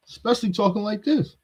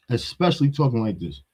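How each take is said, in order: First: Higher, mocking imitation of a soft talker; lightly voiced soft wannabe, mocked; mocking his soft voice. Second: Said in the usual way. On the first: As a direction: sneer at how he sounds by copying it.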